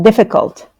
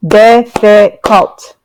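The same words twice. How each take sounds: First: Said in the usual way. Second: Difficult drawn out slowly, each syllable clear. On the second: Shown as a demonstration. Teacher modelling Difficult slowly for students. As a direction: spell out Difficult slowly for the class. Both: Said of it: "That's three syllables".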